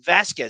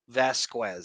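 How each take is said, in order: First: The name ends with a plain 'kez' sound. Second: The name ends with a 'kwez' sound. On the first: The speaker calls it right. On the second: The speaker calls it wrong.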